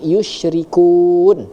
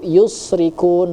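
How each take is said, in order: First: The consonant after 'yu' is an sh sound. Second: The consonant after 'yu' is a plain s. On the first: The speaker calls it right. "jelas bahwa kalimatnya berbunyi berbunyi yusyrikun" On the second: The speaker calls it wrong. "terdengar dibaca oleh Ananda tadi yusrikun, bukan lari ke huruf sya"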